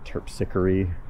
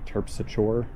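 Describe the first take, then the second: First: The name is pronounced the classical Greek way. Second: The name is pronounced the local street way.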